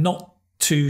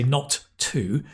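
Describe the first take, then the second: First: The two T sounds merge into one. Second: Both T sounds are pronounced separately. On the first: The speaker calls it right. "there's only one T sound, not two" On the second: The speaker calls it wrong. "you don't need to say not too"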